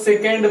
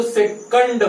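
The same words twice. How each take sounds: First: सेकंड as "se-KEND", with an e in the second syllable; others' pronunciation. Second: सेकंड as "se-KUND", short uh in the second syllable; correct pronunciation. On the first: Retold or imitated. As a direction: quote सेकंड with a "kend" ending. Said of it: "कुछ समझदार लोग सेकंड बोलते हैं". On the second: Shown as a demonstration. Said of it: "ये right है".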